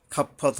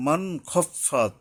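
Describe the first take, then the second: First: খাফাত with a thin a after kh; wrong light vowel. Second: মান খফাত slowly with a clean, unmerged n; clear nun. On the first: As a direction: say খাফাত with an open a, not a full o. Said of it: "খাফাত হবে না". (খাফাত আকার দিয়ে ভুল উচ্চারণ) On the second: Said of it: "নুনকে স্পষ্ট করতে হবে". (মান খফাত নুন স্পষ্ট করে পড়া) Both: Shown as a demonstration.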